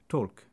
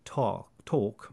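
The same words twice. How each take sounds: First: The vowel is clipped shorter. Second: The vowel is held longer.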